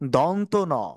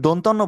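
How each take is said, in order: First: The two words are said separately. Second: The two words are run together into one. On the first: The speaker calls it right. "বরঞ্চ বলতে হবে দন্ত ন" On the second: The speaker calls it wrong. "যদি দন্তন্য বলা হয় তাহলে আমাদের বলাটি কিন্তু ভুল হবে।"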